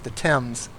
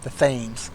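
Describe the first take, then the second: First: Thames is said the standard way. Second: Thames is said the common American way. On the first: The speaker calls it right. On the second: The speaker calls it wrong.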